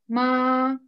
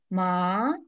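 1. Тон высокий и ровный. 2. Тон поднимается, как удивленный вопрос. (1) "Первое слово в первом тоне" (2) "Второй тон восходящий. Удивляемся"

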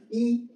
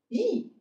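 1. 音高保持在高处，很平。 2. 音从高处猛地降到低处。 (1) "衣服的衣" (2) "四声呢"

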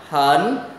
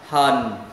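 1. Giọng lên từ giữa lên cao. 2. Giọng hạ thấp rồi lên lại. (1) "thanh 2 lên giọng hẩn" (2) "thanh 3 xuống rồi lên"

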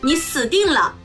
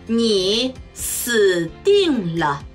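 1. 普通の速さで話されています。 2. ゆっくり、慎重に話されています。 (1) "中国語ネイティブスピード1 回" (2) "中国語ゆっくりスピード1 回"

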